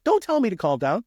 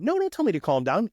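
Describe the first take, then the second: First: Higher and a bit louder, still a half-hearted snap; mock angry retort. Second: A higher, half-hearted angry snap; imitating someone who won't be calmed; mock angry retort. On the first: An angry witness refusing to be calmed, in mock anger. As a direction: push back like an upset witness. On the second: An angry witness snapping at the investigator, in mock anger. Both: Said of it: "Maybe it's angry".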